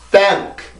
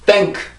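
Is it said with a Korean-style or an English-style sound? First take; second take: English-style; Korean-style. First: It is said longer and deeper, English-style. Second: It is said short, Korean-style.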